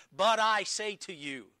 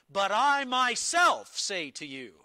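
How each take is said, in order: First: A firm, raised declaration; emphatic quote. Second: "But I myself say to you" with a loud, high push on "I"; much louder stress on "I"; emphatic Jesus quote. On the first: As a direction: proclaim it with authority. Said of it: "Jesus speaks emphatically there". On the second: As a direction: hit "I myself" hard, like a claim of authority. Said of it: "stated that way emphatically". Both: Retold or imitated.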